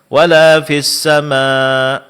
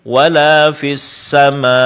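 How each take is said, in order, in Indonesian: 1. Hamzah di akhir itu lemah dan hampir tidak terdengar. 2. Hamzah di akhir itu kuat dan terdengar jelas. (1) "Di sini hamzanya dibaca dengan lemah sehingga tidak terlalu jelas" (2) "mesti ditahqiq, mesti dijelaskan"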